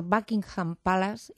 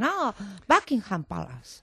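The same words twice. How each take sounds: First: Buckingham Palace with Spanish vowels, PA-las; Spanish-accented Buckingham Palace; Spanish-accented English. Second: Put-on drawn-out English-accented correction; slow mock English accent, sudden realization; imitated English native. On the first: Retold or imitated. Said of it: "preguntas por Buckingham Palace". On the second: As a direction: mimic an English local finally understanding, slowly. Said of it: "Entonces te dicen".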